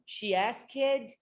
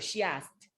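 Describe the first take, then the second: First: The word ends with an extra 'kid' syllable. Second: The word ends cleanly in a t sound. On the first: The speaker calls it wrong. "I tend to say ask kid" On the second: The speaker calls it right. "no, she asked"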